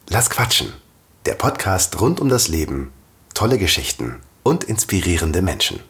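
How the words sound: It is spoken with an audible smile. "jetzt mit Lächeln"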